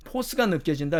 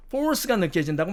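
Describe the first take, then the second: First: 포스 with a plain o and no r; British-style loanword. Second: 포스 with an English r put in; American-style loanword. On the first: Teacher quoting everyday usage, 포스 without an r. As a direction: say 포스 r-less, as "po-seu". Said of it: "이렇게 말을 하죠". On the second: Teacher showing what nobody says, 포스 with an American r. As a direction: curl an r into 포스, as "por-seu". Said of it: "말을 안 하죠". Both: Shown as a demonstration.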